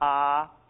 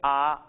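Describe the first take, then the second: First: The vowel is held long. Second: The vowel is said short. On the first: "Maybe just holding it" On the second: "They can be short or long"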